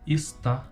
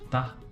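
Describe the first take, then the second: First: The word keeps its first syllable 'es'. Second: The first syllable is dropped, leaving 'tá'.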